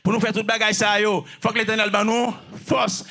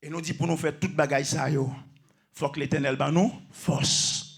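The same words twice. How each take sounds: First: Full-voiced, insistent preaching; forceful repetition. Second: Low, soft, restrained preaching; subdued statement. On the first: Preacher saying we need strength from the Eternal, forceful. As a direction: proclaim it firmly to the room. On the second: Preacher saying we need strength from the Eternal, subdued and low. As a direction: say it quietly, almost privately. First, subdued take of the line. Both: Real, not acted.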